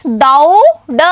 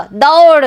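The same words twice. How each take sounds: First: दौ and ड said as separate syllables with a gap; split into syllables. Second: Said in the usual way. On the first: Shown as a demonstration. Teacher splitting दौ ड for the class to repeat. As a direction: break दौ ड apart before blending. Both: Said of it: "अब एक साथ बोलिए".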